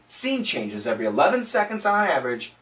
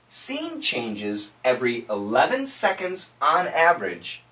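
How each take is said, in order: First: It is spoken at a fast pace. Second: It is spoken at a slow pace. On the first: "Now let's try and say it a little bit faster" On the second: "Say it with me slowly"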